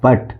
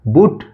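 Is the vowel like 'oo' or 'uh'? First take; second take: uh; oo. First: The vowel sounds like 'uh'. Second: The vowel sounds like 'oo'. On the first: The speaker calls it right. "लिखा है बट" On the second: The speaker calls it wrong. "बुट नहीं"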